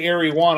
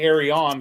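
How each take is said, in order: First: The name sounds like the words airy one. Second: The name sounds like a single word, arion. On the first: This is how many people say it. The speaker calls it wrong. "A lot of people say Airy One" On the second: This is how the company itself says it. The speaker calls it right. "I say Arion"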